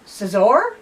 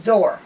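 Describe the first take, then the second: First: The name starts with an s sound before z. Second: The name starts directly with a z sound. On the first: "I put the S in there in the first pronunciation" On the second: "without the S on the second"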